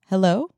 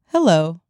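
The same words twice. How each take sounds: First: The pitch rises at the end, like a question. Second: The pitch falls at the end, like a statement. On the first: It sounds like a question. The speaker calls it wrong. "No, I'm sorry" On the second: It is a confident statement. The speaker calls it right. "Not a question mark"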